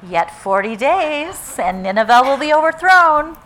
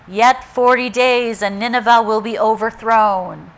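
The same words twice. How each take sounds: First: It is said with a hint of excitement. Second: It is said in a somber, serious tone. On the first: The speaker looks forward to the destruction. "Or was there a little hint of excitement in it, in his voice?" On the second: The message is a grave warning. "Was it somber and serious, almost like a dirge?"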